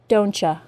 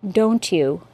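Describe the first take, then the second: First: You is reduced to a casual ya. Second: Both words are said separately, with no blending. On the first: "as an informal contraction" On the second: "articulate perfectly, with no assimilation"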